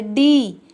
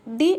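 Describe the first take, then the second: First: "डी" with a long, louder, stretched ee; long vowel. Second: Short "डी" with a brief ee; short vowel. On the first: Teacher showing how the bada ee sounds, long-vowel "डी". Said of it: "डी का उच्चारण बड़ा होता है". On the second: Teacher showing the chhota ee matra, short-vowel "डी". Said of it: "छोटा ई का उच्चारण डी ऐसे करेंगे". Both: Shown as a demonstration.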